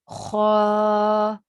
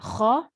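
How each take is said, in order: First: The vowel is long, stretched out. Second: The vowel is short, not stretched. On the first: "kha standing fatha" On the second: "kha fatha"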